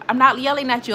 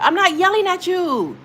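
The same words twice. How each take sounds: First: Said in the usual way. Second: High, raised-voice denial; yelled protest. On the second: Real, not acted. Streamer answers viewer who says keep yelling, yelled protest. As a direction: protest loudly at the accusation.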